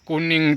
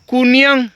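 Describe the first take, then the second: First: The word ends with an 'ing' sound. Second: The word ends with a 'yang' sound. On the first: This is the standard Indonesian form. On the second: This is the Padang (Minang) form.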